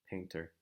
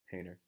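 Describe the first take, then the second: First: The T is pronounced clearly and strongly. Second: The T disappears after the N. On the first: "We don't really hear people saying the T sound so strongly" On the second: "the T sound almost goes away completely"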